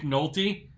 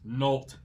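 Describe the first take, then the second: First: The name ends with a vowel sound after 't'. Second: The name ends sharply on the 't' sound. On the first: This is the usual way to say the name. The speaker calls it right. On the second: This is one person's mistaken way of saying the name. The speaker calls it wrong.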